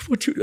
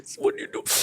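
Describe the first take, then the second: First: Much higher pitched, imitating an emotional promoter; a high, choked What do you do; high promoter quote. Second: Breathy near-whisper, asking gently; barely voiced, imitating the promoter leaning in; a whispered What do you do; hushed promoter quote. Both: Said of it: "तो मेरा promoter दर्शन जी ने उसे पकड़ा मुझे".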